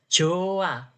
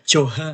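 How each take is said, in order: First: No h sound is heard between the vowels. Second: An h sound is heard between the vowels. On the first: The speaker calls it right. "H ... itu nggak dibaca" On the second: The speaker calls it wrong. "jangan Joha, kayak gitu nggak boleh"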